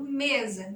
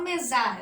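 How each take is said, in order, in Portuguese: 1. A tônica está na primeira sílaba. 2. A tônica está na última sílaba. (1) "eu falo mesa, mesa, mesa é mais forte" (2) "não falo mesar"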